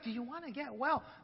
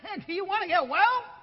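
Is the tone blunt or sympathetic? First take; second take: sympathetic; blunt. First: It is said gently, with sympathy. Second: It is said bluntly, without sympathy.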